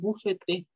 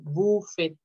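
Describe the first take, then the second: First: A final vowel is heard after the T. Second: It ends on the T with no vowel after. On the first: The speaker calls it wrong. "no digan bufete" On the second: The speaker calls it right. "es buffet sin la S"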